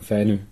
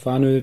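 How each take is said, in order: First: The name is pronounced the Danish way. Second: The name is pronounced the German way. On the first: "die Dänen sagen Fänø" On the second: "die Deutschen sagen Fanø"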